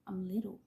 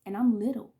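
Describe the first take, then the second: First: Unvoiced whisper of I'm little. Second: Said in the usual way. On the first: Real, not acted. Whispering to viewers how small she was as a child. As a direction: hush it, small and tender.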